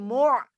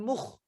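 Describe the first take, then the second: First: A tight throat ayn sound follows the vowel. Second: A rasping kh sound follows the vowel. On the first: The speaker calls it right. "Tapi mu' mu'sira" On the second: The speaker calls it wrong. "jangan mukh"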